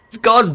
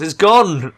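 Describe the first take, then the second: First: Much higher and louder, gleeful; more excited. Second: Louder, thrilled announcement; excited. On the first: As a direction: let the glee climb even higher. Repeated, climbing higher. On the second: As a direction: tell it with glee. Religion wiped out, repeated. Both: Real, not acted.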